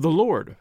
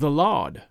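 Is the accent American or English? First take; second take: American; English. First: It is said in an American accent. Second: It is said in an English accent.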